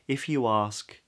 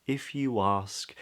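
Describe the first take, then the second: First: The linking W sound is soft and light. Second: The linking W sound is soft and light.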